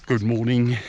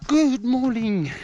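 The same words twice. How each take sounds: First: Said in the usual way. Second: "good morning" drawn out slow and high, falling at the end; Afrikaans-style greeting. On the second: Shown as a demonstration. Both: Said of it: "I don't know how to say".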